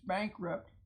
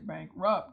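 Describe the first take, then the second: First: The stress is on the first syllable. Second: The stress is on the second syllable. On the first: The speaker calls it right. "the accent is actually on bank" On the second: The speaker calls it wrong. "You don't say bankrupt"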